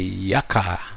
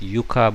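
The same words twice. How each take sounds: First: It is pronounced the English way. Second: It is pronounced the Hawaiian way. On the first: "most of the Americans and the Europeans seem to say yucca" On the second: "maybe some Hawaiians call it yucca"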